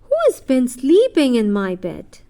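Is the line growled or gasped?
growled. It is said in a low growl.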